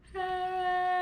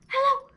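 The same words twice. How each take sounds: First: It is said slowly. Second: It is said fast.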